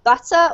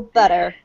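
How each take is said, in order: First: Butter with a crisp T, BUT-uh; British butter, T released and no R; UK T sound. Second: Butter with a flapped D, BUDDER; American T sound. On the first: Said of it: "the U K T sound". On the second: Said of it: "either the American". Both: Shown as a demonstration.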